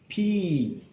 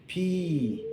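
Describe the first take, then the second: First: The letter is said as its alphabet name. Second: The letter is said as its alphabet name.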